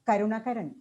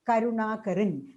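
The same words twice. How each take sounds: First: All of the a vowels are said short. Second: Some of the a vowels are said long. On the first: This is how a non-native speaker reads it. "a non-native speaker who's not a native speaker of Malayalam will tend to uh, pronounce it as" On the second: This is how a Malayalam reader reads it. "So when you write it in Malayalam, we will read it as Karunakaran"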